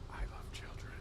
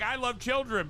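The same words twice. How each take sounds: First: It is spoken in a whisper. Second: It is spoken in a normal voice. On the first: It sounds creepy. "Everything's creepier when you whisper it" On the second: It sounds like an ordinary statement. "it's like I love children"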